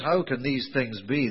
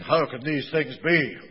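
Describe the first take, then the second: First: The question sounds sincere and earnest. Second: The question sounds annoyed and objecting.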